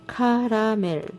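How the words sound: It is said with a Korean-style pronunciation. "how Koreans pronounce it caramel"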